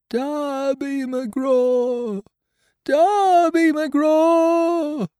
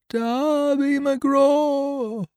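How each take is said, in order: First: Very high, slow, drawn-out wail, rising louder; eerie spirit calling out across the island; ghostly wail. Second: Very high, slow, drawn-out wail; eerie far-off hail from the trees; ghostly wail. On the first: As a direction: wail the name over and over like a ghost. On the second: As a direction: wail the name like a distant ghost. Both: Acted. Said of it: "it wailed".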